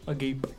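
The word is said with an English pronunciation. "otherwise in English"

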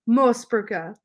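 It is said forcefully with a German pronunciation. "It's actually Austrian. So you're supposed to say it pretty aggressive"

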